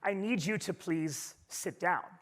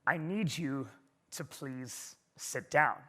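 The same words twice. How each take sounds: First: The voice is firmer and deeper than before. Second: The voice is at its deepest and firmest.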